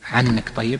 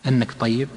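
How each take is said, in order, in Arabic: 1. تبدأ الكلمة الأولى بالعين الحلقية. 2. تبدأ الكلمة الأولى بهمزة. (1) "استعملها أهل البادية، يقولون عنك طيب" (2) "أصلها أنك طيب"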